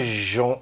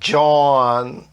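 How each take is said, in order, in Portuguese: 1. Começa com um som suave de 'zh'. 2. Começa com um som de 'dj'. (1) "não é John" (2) "O J no início de palavra tem som de D J"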